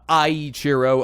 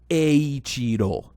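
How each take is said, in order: First: It is said with an American-style pronunciation. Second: It is said with a Japanese-style pronunciation. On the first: The speaker calls it wrong. "that's how I've always read it with my you know American accent, which is wrong" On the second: The speaker calls it right. "it's actually pronounced Eiichiro, which it is"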